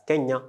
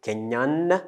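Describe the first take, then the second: First: KENYA ending on an open a; silent final N. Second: KENYAN with the last n clearly held; sounded final N. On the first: Teacher showing the masculine form, open vowel ending. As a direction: say Kenya with no n at the end. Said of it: "this we pronounce it as Kenya". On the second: Teacher showing the E effect, final n pronounced. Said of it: "gives the letter N the sound". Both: Shown as a demonstration.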